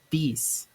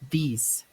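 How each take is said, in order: No difference in how they are said.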